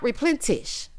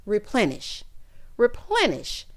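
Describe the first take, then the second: First: "replenish" with a T put in, like "replentish"; mock the wrong "replenish", ending in -tish; mispronunciation with T. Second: "Replenish" said with no T, ending in a plain -nish; correct pronunciation. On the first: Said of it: "putting a T in replenish". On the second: Shown as a demonstration. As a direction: say "Replenish" carefully, without any T. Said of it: "why do you keep putting a T in replenish?".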